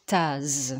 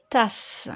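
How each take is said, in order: First: « tasse » prononcé « taze »; un seul S, son Z. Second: « tasse » avec un S final sifflant; son S. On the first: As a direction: termine « tasse » sur un zzz sonore. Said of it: "Si je ne mets qu'un seul S". (« tasse » dit taz, plus grave) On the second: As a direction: prononce « tasse » en finissant sur sss. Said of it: "pour faire le son S". (« tasse » avec consonne finale sourde) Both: Shown as a demonstration.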